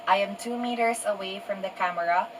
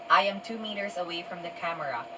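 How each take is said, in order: No difference in how they are said.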